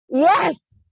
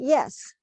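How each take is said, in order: First: It is said loudly. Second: It is said at a normal, softer volume.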